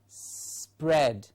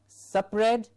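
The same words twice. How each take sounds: First: A small s runs straight into pred. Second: The start is not a tight s-p-r cluster. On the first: The speaker calls it right. "say pred and a s before it" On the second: The speaker calls it wrong. "not spread"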